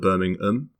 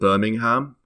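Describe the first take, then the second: First: It is said in a British accent, without the h. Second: It is said in an American accent, with the h. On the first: "all the Brits call it Birmingham. They don't pronounce the H" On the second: "all the Americans pronounce it Birmingham"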